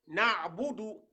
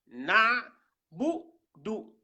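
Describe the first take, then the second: First: Said in the usual way. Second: NA held loud, then BOU and DOU set apart; syllable by syllable. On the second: Shown as a demonstration. Teacher sounding out the word for learners, syllable by syllable.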